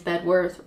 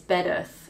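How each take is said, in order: First: The name ends with a full 'worth' sound. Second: The name ends with a short 'ith' sound. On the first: The speaker calls it wrong. "Wrong is" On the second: The speaker calls it right. "Right is"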